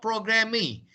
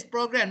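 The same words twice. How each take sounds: First: Programming said as "program-ee", with an extra ee after the m; mispronounced final E. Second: Said in the usual way. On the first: Shown as a demonstration. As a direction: sound the silent ending of programming as "mee". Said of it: "not programming". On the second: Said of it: "but the pronunciation is program, not programming".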